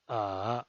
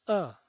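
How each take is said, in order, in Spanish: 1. El tono baja hasta lo bajo y luego sube. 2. El tono cae de alto a bajo. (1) "desciende primero ... para ascender luego" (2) "El cuarto tono es un tono bajado"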